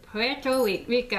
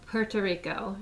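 First: Higher, halting try at a Spanish-accented PUERTO RICO; attempted Puerto Rican accent. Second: Said in the usual way. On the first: Shown as a demonstration. Speaker trying to pronounce it as well as Trump, attempted Spanish accent. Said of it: "I can't do that accent". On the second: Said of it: "I can't even pronounce it as well".

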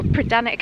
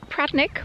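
First: Pradanic with all three syllables; full pronunciation. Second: Pradnick in two syllables, Cornish local way; Pradnick, shortened as locals say it; middle syllable dropped. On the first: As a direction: keep the middle syllable in Pradanic. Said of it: "however you pronounce it". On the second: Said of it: "We do tend to lose that middle". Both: Shown as a demonstration.

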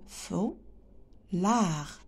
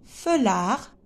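First: "Feulard" in two softer beats, fou, long pause, lard; split into syllables. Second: Said in the usual way. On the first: Shown as a demonstration. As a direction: break "Feulard" slowly after the first syllable. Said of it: "On a deux syllabes". (« Feulard » découpé, fou… lard)

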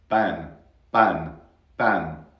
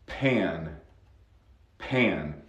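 First: "pan" with no puff, almost like ban; unaspirated P. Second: "pan" with a puff of air after the p; aspirated P. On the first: Teacher shows learners the wrong P, dry hard-p "pan". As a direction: punch "pan" with a dry, airless p. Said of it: "so no es". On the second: Teacher shows she is blowing, puffed-p "pan". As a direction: blow out the p at the start of "pan". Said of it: "estoy soplando". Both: Shown as a demonstration.

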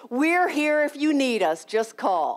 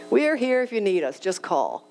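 First: Lightly voiced kind neighbor; neighbor's kind offer. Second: Reflective repeat. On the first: Neighbor Carol offering help on the phone, kindly. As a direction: offer help gently, almost sing-song. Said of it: "Hey, honey". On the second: Real, not acted. Speaker repeating the neighbor's words as it sinks in, thoughtfully. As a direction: let the words land as a realization. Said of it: "A huge light bulb went off".

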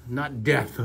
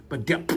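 First: Death with a plain t-h ending; wrong word death. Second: "depth" with p before final th; correcting death to depth for the kids; correct word depth. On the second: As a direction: say "depth" with a clear p. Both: Shown as a demonstration.

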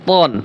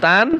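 First: তন with a heavy t and rounded back vowel; thick letter. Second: তান with a light t and front a; thin letter. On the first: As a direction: make the t in তন thick and full. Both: Shown as a demonstration. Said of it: "পাতলা এবং মোটার ভিতরে পার্থক্য".

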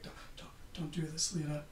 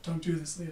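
First: A hint of an Irish accent, much softer; barely-there Irish accent, quiet; half-done Irish accent. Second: Said in the usual way. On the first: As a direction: softly start an Irish accent, then drop it. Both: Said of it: "I'm not doing the accent".

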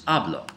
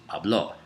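First: "habló" said as HAB-lo, falling away after the first syllable; "habló" with the weight up front, like present-tense hablo; stress on first syllable. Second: "habló" said as hab-LO, rising onto the final o; "habló" with the weight at the end, past-tense style; stress on last syllable. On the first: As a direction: punch the first syllable of "habló" and let the last drop. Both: Shown as a demonstration. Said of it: "look at the, the emphasis".

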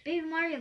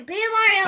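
First: Said in the usual way. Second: Loud call across the room. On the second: Acted. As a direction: shout the name to find him. Calling out for a friend.

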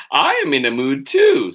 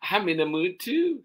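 First: Put-on very high, loud child's complaint; indignant child. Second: Put-on high child's grumble, moderate volume; complaining child. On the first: Charlie grumbles, first reading. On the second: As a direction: grumble up high without shouting. Same complaint, second reading.

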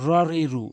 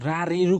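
First: র রি রু with র as a rounded "raw"; rounded heavy ro. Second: রা রি রু with an open "aa" in রা; mistaken open raa. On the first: Teacher drilling the correct letter ra, rounded vowel. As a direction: open the set on rounded "raw", then ri, ru. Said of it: "যেমন র জবর রয় হবে". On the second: Teacher showing what it must never be, open raa. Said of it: "কখনোই হবে না". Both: Shown as a demonstration.

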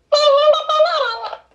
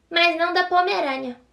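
First: Much higher, louder toy voice; talking doll voice. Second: Said in the usual way. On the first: Shown as a demonstration. Girl repeating the line as her toy, high squeaky doll. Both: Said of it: "toy voice repeat".

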